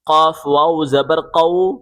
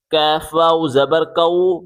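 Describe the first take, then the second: First: Heavy back-of-tongue q on "قاف" and "قو"; thick qaf. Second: Light k with a thin vowel on "کاف" and "کو"; thin kaf. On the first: Teacher showing the thick letter, heavy qaf. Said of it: "اسے موٹا کر کے پڑھیں گے". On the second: Teacher showing the thin letter, light kaf. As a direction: say "کاف" as a light "kaef", k forward in the mouth. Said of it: "باریک کر کے پڑھیں". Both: Shown as a demonstration.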